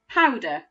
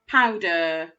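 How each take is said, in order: First: The ending is a short, relaxed 'uh' sound. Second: The ending is a full, robotic 'er' sound. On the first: The speaker calls it right. "with that end grapheme making the uh sound" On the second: The speaker calls it wrong. "Sounds like a robot saying it"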